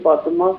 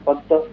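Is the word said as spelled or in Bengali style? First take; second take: as spelled; Bengali style. First: The word is pronounced exactly as spelled. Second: The word is pronounced in Bengali style. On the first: This is how it is written. "ଲେଖନ୍ତି" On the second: This is how Bengali speakers say it. "କହିବେ"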